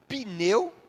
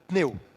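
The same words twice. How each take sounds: First: A vowel sound is slipped between p and n. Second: The p and n are joined with no vowel. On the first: "colocam como se fosse uma vogal entre o P e o N" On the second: "Se a gente for pronunciar a palavra sem esse som vocálico"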